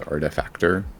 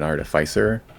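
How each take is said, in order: First: The word ends with a 'factor' sound. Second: The word ends with a 'ficer' sound. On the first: The speaker calls it wrong. "I know I pronounced that word wrong" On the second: The speaker calls it right. "I heard someone call it an artificer"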